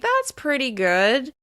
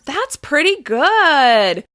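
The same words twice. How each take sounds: First: It is said in a hesitant, uncertain tone. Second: It is said in an enthusiastic, lively tone. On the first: The speaker is not fully impressed. "with intonation that expresses hesitation" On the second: The speaker is genuinely impressed. "with intonation that expresses more enthusiasm"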